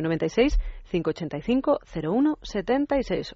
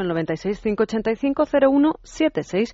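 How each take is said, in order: First: The number is read at a slower pace. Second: The number is read at a quicker pace.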